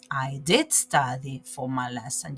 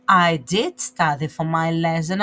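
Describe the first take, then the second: First: Did said with a rising push, the rest plain; stress on did. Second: I did study for my lesson said loud with a rise on I; emphatic I did. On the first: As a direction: lift the word did and lean on it. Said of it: "You stress on that". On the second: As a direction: push the whole line louder, lifting at I. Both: Shown as a demonstration.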